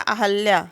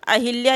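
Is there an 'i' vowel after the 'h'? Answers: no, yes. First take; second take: no; yes. First: No vowel follows the 'h' sound. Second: An 'i' vowel follows the 'h' sound. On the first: The speaker calls it right. "ये हो जाएगा अहल्या" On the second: The speaker calls it wrong. "ये गलत है"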